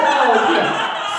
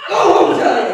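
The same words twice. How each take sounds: First: Loud, hammed-up baby sobbing. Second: Loud, hammed-up action-cop outburst. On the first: Demonstrating a party-game trigger to the audience, mock baby sobbing. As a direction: wail out a mock sob, higher and louder. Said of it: "start sobbing like a little baby". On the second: Demonstrating a loud-noise trigger to the audience, mock action cop. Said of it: "start acting like an action cop". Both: Shown as a demonstration.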